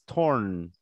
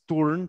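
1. La vocal suena más cercana a 'or'. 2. La vocal suena como una 'u' española. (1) "sino dices torn" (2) "tú no dices turn"

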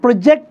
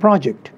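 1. ज़ोर दूसरे अक्षर पर है। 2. ज़ोर पहले अक्षर पर है। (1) "you're using it as a verb" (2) "you're talking of a task"

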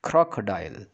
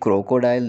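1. पहला स्वर ज़्यादा खुले मुंह से बोला जाता है। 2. पहला स्वर कम खुले मुंह से बोला जाता है। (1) "थोड़ा सा मुंह ज़्यादा खोलना है" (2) "ये क्रोकोडाइल नहीं है"

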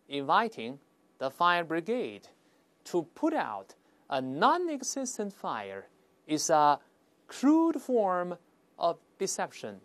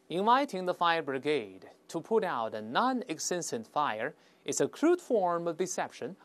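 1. 这句话说得比较慢。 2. 这句话说得比较快。

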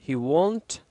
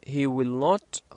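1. "Will" و"not" يندمجان في كلمة واحدة. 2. "Will" و"not" يُقالان ككلمتين منفصلتين. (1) "هاي بتتغير إلى he won't"

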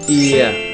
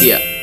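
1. Nguyên âm này được kéo dài. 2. Nguyên âm này được đọc ngắn lại. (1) "Ear dài thì cứ ear" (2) "Nguyên âm ear ngắn sẽ là ear"

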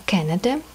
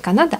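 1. Слово произносится с английским произношением. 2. Слово произносится с русским произношением. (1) "а Canada произношение" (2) "Не Канада"

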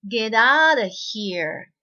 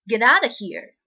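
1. 文はゆっくり読まれています。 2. 文は普通の速さで読まれています。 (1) "最初ちょっとゆっくり読んで、" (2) "2 回目普通の速さにしましょうね。"

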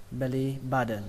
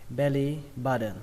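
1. Âm t trong button nghe giống âm d. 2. Âm t trong button nghe giống âm d.

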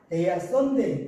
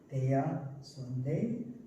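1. 'Sunday' 끝에서 목소리가 내려가요. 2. 'Sunday' 끝에서 목소리가 살짝 올라가요. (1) "끝을 내리시면 좋지 않습니다" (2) "살짝살짝 들어 올린다는 느낌으로"

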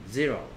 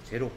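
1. 영어식 모음으로 말했어요. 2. 한국식 모음으로 말했어요. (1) "영어 발음은" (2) "한국 사람들은 e가 a라고 생각하고 o를 o라고 생각해요"

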